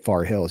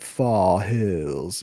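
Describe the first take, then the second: First: The name is said in a plain accent. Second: The name is said in a posh accent. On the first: The speaker calls it wrong. "you don't say Far Hills" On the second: The speaker calls it right. "you call it Fall Hills because it's like all the richy people grew up there"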